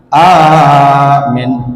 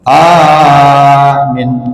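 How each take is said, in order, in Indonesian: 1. Hanya vokal pertama yang dipanjangkan. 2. Hanya vokal pertama yang dipanjangkan.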